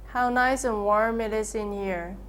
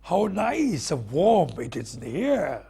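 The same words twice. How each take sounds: First: Flat, even, no pitch movement; monotone. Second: Slower, with a lively rising and falling tune; varied warm delivery. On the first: [name] showing the problem to students, flat monotone. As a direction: say it dead flat, no tune. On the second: [name] demonstrating the remedy for monotone, slow and varied. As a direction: let the voice move and warm up. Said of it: "Vary your voice range, expressions". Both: Shown as a demonstration.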